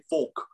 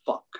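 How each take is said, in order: First: "folk" for the swear word, said with an English vowel; English pronunciation. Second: Said in the usual way. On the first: Retold or imitated. Comparing how the English swear, "folk" with imitated English vowel. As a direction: mimic English people saying "folk". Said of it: "how English people say". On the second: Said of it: "but it's fuck".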